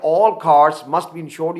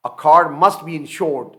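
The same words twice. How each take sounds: First: All stressed slowly and firmly. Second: Said in the usual way. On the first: Shown as a demonstration. Teacher to Urdu-speaking students, stressing all. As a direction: lean hard on all to show every car. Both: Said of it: "اس کا مطلب یہ ہوا کہ".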